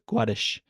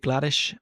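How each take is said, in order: First: The name is said with a W sound. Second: The name is said with an L sound.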